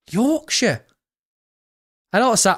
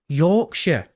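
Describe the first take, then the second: First: "Yorkshire" pitched up in a failed Yorkshire accent; a clumsy stab at Yorkshire; attempted Yorkshire accent. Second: Said in the usual way. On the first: Shown as a demonstration. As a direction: try a Yorkshire twang on "Yorkshire". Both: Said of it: "I can't even do a Yorkshire accent".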